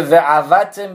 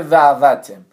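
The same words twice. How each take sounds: First: "و عوتم" with the guttural ayin sounded; correct pronunciation. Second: "و عوتم" with ayin softened to a silent alef; mispronunciation demo. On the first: Teacher contrasting two readings, correct "و عوتم" with ayin. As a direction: give "و عوتم" its throat consonant after ve. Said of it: "به جای اینکه بگه". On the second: Teacher showing the mistaken reading, "و عوتم" without ayin. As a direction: glide into "و عوتم" with no throat consonant. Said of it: "بگه و عوتم". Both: Shown as a demonstration.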